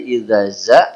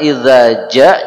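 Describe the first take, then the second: First: The word begins with a z sound. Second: The word begins with a j sound. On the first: The speaker calls it wrong. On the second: The speaker calls it right.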